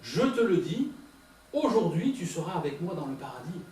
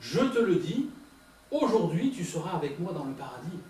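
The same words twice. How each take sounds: First: The pause comes before 'aujourd'hui'. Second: The same.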